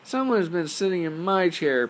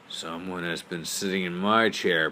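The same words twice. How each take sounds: First: It is said in a tiny, high voice. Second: It is said in a big, deep voice. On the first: "cried in his tiny little voice" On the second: "said in his great big voice"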